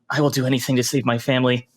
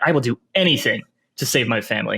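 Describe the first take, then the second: First: The voice rises at the end, sounding nervous. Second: The voice stresses 'anything' and falls at the end. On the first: "maybe an uptick at the end" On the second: "if we put emphasis on anything"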